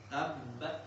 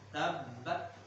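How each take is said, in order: No difference in how they are said.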